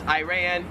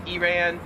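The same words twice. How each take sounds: First: "Iran" as eye-RAN; American variant. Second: "Iran" as ee-RAN; Australian pronunciation. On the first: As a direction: open "Iran" with a long i. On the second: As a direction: open "Iran" with ee, not eye. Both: Shown as a demonstration. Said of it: "Same thing for the next one".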